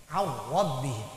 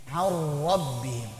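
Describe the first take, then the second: No difference in how they are said.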